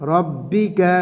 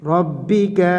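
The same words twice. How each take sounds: The two takes are said the same way.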